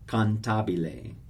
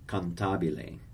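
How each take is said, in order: First: The word is said with four full syllables. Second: The word is said with four full syllables.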